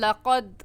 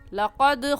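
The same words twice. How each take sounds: First: The final d is plain, without a bounce. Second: The final d has a slight bouncing release. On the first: The speaker calls it wrong. "गलत हो जाएगा" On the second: The speaker calls it right. "सही है"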